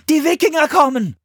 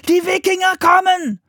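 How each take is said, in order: First: Put-on high, loud boy's warning; high-pitched alarm call; repeated alarm. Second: Put-on high, loud child's warning; very high urgent yell; alarm shout. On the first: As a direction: shout the news urgently to the monks. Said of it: "wiederholte Philipp". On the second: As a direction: shout to warn the whole monastery. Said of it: "rief Philipp". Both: A narrator's reading.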